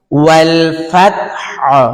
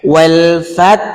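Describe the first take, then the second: First: ফাত with the throat-pressed হ; ওয়াল ফাত, then press হ from the throat; right take. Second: ওয়াল ফাত cut off without the final হ; wrong take. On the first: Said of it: "হাও বলবেন, গলায় চাপও দিবেন". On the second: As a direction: stops on ফাত and drops the হ. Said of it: "পরে যে হা আছে গলায় চাপ দিতে হবে". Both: Shown as a demonstration.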